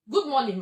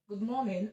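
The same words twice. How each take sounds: First: The pitch falls at the end, like a statement. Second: The pitch rises at the end, like a question. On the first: The speaker calls it wrong. "same child comes to you" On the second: The speaker calls it right. "you greet with a rise. Good morning, as though you were asking a question"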